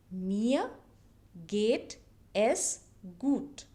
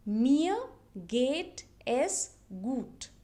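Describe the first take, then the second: First: Mir geht es gut again, slow and falling; slow repeat. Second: Mir geht es gut drawn out slowly; slow model phrase. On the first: Teacher repeating Mir geht es gut slowly for learners. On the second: Teacher slowly modelling Mir geht es gut for learners. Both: Shown as a demonstration. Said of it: "how do you say that".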